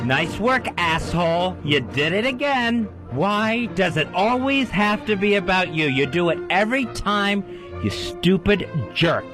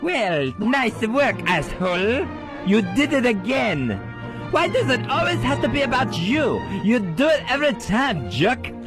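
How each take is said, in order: First: It is said in his normal voice. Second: It is said high, squeaky, with French accent.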